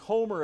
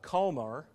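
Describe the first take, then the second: First: The word starts with a plain English h. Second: The word starts with a throaty guttural sound.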